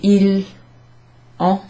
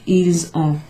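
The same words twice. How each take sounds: First: The S is silent, with no link. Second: The S links to the vowel as a Z. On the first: The speaker sounds like a learner. The speaker calls it wrong. "that's probably a new speaker rather than someone who's native" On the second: The speaker sounds native. The speaker calls it right. "you make a liaison there, and it sounds a bit like a Z sound"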